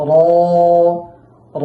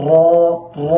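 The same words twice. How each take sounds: First: র with just a light tap, no extra trill; teacher modelling the proper র; correct light r. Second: র rolled with too much trill; teacher showing the mistake with র; wrong over-trilled r. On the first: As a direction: say র lightly without rolling. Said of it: "অতিরিক্ত কম্পন তৈরি না হয়". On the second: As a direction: show the bad, over-rolled র. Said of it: "এরকম যেন না হয়". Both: Shown as a demonstration.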